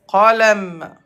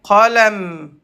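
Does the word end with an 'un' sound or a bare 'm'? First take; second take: bare m; bare m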